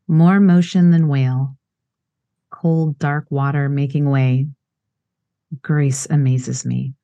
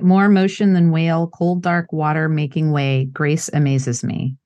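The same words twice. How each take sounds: First: It is read slowly with pauses to breathe. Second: It is read fast without pauses to breathe.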